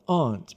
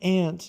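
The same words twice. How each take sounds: First: It sounds different from the insect word ant. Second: It sounds the same as the insect word ant. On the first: This is the proper way the mother wanted. The speaker calls it right. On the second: This is the casual way the children said it. The speaker calls it wrong. "she's not a bug"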